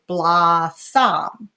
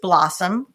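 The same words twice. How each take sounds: First: The last syllable has a full, clear vowel. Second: The last syllable has a reduced schwa vowel. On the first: The speaker calls it wrong. "they might not know the schwa, so they might say blossom" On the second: The speaker calls it right. "this word has a schwa at the end. It's pronounced blossom"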